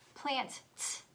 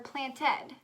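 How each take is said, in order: First: The word ends with a plain t sound. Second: The word ends with an added id syllable. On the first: "is it plant, t" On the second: "or planted?"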